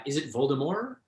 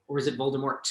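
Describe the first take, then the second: First: Voldemort with a silent final T; French-style Voldemort. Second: Voldemort with the final T pronounced; sounded-T Voldemort. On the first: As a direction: say Voldemort ending on "more". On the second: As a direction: finish Voldemort on a crisp T sound. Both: Shown as a demonstration. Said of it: "unclear how the name should be pronounced".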